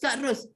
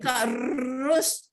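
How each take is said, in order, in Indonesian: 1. Huruf r digetarkan secukupnya, sebentar. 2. Huruf r digetarkan lama dan berlebihan. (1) "itu yang betulnya" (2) "Tak adalah jadi Kak Ros. Ha, tak betul"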